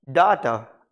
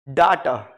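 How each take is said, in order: First: It is said with a British 'dah' vowel. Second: It is said with a British 'dah' vowel.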